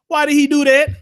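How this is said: It is said in a put-on preaching voice.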